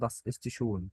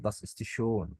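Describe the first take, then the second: First: Das ist schön with a plain short o in schön; unrounded quick o; wrong German o. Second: Das ist schön, slow, with a long rounded ö; careful German ö, lips rounded and held; slow, drawn umlaut. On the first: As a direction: say schön like "shon", no umlaut. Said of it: "لا، das ist schön". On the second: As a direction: stretch the ö in schön. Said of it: "بطول في الأملاوت شوية". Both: Shown as a demonstration.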